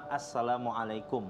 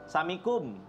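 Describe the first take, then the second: First: The greeting is said in full, every syllable. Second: The greeting is clipped, with its start dropped. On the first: The speaker calls it right. "terus dia bilang Assalamualaikum" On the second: The speaker calls it wrong. "Padahal salah dalam pengucapannya dia"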